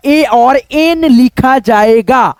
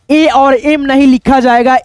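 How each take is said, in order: First: एन drawn out slowly as the right letter; stress on एन. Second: Said in the usual way. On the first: Shown as a demonstration. Teacher correcting students, stressing एन slowly. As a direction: say ए और एन slowly, leaning on एन.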